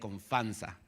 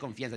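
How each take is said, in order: First: It is said without an 'ee' sound after the f. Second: It is said with an 'ee' sound after the f. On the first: The speaker calls it wrong. "decía confanza" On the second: The speaker calls it right. "No decía confianza"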